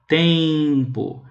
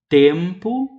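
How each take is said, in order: First: The nasal vowel ends in a strong 'ee' glide. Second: The nasal vowel is plain, with no glide. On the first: This is the speaker's own regional accent. "É como se tivesse um i. ... Agora eu exagerei" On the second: This is how people in other regions say it. "em outros lugares do Brasil que a gente vai ouvir a pronúncia tempo e vento"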